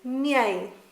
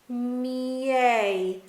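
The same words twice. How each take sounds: First: The word is said quickly as one smooth syllable. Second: The word is said slowly with sounds separated. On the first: "progressively say it faster" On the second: "split the sounds out"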